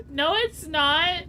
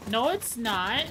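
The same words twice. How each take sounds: First: Louder and slower, leaning on "it's"; emphatic denial. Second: Said in the usual way. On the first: Real, not acted. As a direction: stretch out "No, it's not" firmly.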